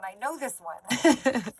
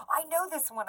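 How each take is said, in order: First: Laughing mock eager. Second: Mock eager know-it-all. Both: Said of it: "you're just sitting there going".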